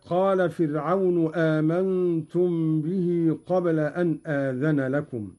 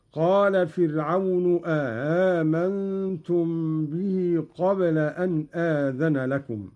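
First: Said in the usual way. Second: "آمنتم" as a question, first hamza clear, second eased; softened second hamza. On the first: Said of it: "قرأ قالون بهمزتين على الاستفهام". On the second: Shown as a demonstration. Teacher demonstrating Qalun's reading, "آمنتم" with its second hamza softened. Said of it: "مع تسهيل الهمزة الثانية بدون إدخال".

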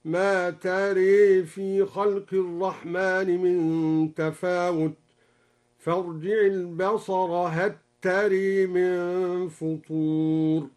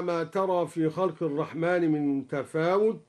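First: ترى chanted slowly with the alif bent toward e, tare; slow chant of ترى with imala; slow recited variant. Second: Said in the usual way. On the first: Shown as a demonstration. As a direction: intone ترى with imala, the vowel leaning to e. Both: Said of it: "قرأ بإمالة الألف بعد الراء".

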